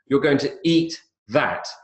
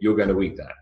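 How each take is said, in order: First: The voice rises at the end. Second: The voice falls at the end. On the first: The speaker is asking a question. "this questioning intonation" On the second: The speaker is stating a fact, not asking. "That's a statement, it's not a question"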